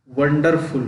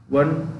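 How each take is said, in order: First: Said in the usual way. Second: वंडरफुल broken into वं, डर, फुल with long pauses; syllable by syllable. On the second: Shown as a demonstration. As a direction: say वंडरफुल in three separate beats. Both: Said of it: "दो syllable से ज़्यादा वाले हैं".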